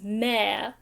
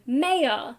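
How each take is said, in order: First: It is said with an Australian pronunciation. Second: It is said with an American pronunciation. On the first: "in Australia, the way that we pronounce M A Y O R is mayor" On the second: "I think I picked up the American pronunciation"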